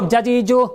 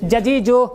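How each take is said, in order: No difference in how they are said.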